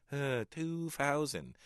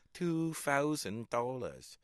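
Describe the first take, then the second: First: Put-on slow, higher Hong Kong accent. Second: Slow Hong Kong accent imitation. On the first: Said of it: "making a recording in my head". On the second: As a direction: mimic the shopkeeper's accent, slowly. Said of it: "I'd be giggling to myself".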